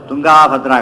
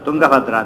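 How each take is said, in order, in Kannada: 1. "Tung" ನಂತರದ ಸ್ವರವನ್ನು ದೀರ್ಘವಾಗಿ ಹೇಳಲಾಗುತ್ತದೆ. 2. "Tung" ನಂತರದ ಸ್ವರವನ್ನು ಹ್ರಸ್ವವಾಗಿ ಕತ್ತರಿಸಿ ಹೇಳಲಾಗುತ್ತದೆ. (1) "ತುಂಗಾಭದ್ರ ಆಗಬೇಕು" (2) "ಏನಾಯ್ತದ ತುಂಗಭದ್ರ ಅಂತ"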